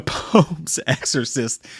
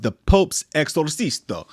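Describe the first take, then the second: First: Said in the usual way. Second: "Exorcisto" said with a joking extra "-o" on the end; a deliberate slip, "Exorcisto" ending in a stressed "oh"; mispronounced title. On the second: Shown as a demonstration. Host jokingly garbles the movie title "Exorcisto".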